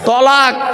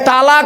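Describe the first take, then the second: First: The first syllable has a rounded 'o' vowel. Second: The first syllable has an open 'a' vowel. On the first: Separation or divorce. The speaker calls it right. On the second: Joining or coming together. The speaker calls it wrong. "এই তালাক নয়"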